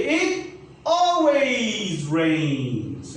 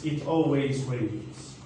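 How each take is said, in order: First: "It always rains" said very slowly, word by word; slow model sentence. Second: Said in the usual way. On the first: Shown as a demonstration. Teacher modelling the example sentence very slowly. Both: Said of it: "I'm gonna use always".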